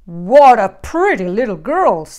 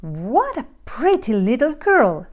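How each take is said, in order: First: Growling big bear. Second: Softer, lilting middle-sized bear voice; quieter mother bear. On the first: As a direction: growl admiringly as Papa Bear. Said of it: "growled the bear". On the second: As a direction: admire her as Mama Bear, less gruff. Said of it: "said the middle-sized bear in her quieter voice". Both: A narrator's reading.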